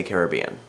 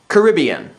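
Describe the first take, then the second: First: "Caribbean" as care-ih-BEE-un; stress on third syllable. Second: "Caribbean" as kuh-RIB-ee-un; stress on second syllable. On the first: Saying it as for the movie, "Caribbean" stressed on BEE. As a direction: put the weight on BEE in "Caribbean". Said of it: "referring to the movie I say". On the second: Reading out a word list, "Caribbean" stressed on RIB. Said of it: "when I'm referring to the movie". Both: Shown as a demonstration.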